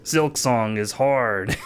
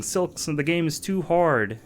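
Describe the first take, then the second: First: Slow, drawn-out mock maniac; mock maniacal glee. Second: Higher-pitched mock whine of a crying anime girl. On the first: Streamer quoting a meme's laughing anime guy, mock maniacal. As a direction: imitate a maniacally gleeful anime guy, slowly. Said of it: "anime guy laughing maniacally saying". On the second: Streamer quoting a meme's crying anime girl, mock crying. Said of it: "anime girl crying and saying".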